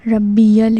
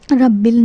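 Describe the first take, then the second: First: ربی ال with long ee, "rabbee-yal"; correct pronunciation. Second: Short, joined "rabbil" for رب ال; wrong pronunciation. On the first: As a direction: model ربی ال as "rabbi-yal". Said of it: "ربی ال ہے". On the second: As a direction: show the mistaken "rabbil" in رب ال. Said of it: "رب ال نہیں ہے". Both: Shown as a demonstration.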